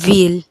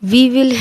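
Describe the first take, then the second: First: Will is reduced to an l sound. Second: Will is said as a separate full word.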